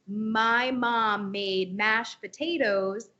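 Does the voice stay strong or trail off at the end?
strong. The voice stays strong through the end. The speaker calls it right.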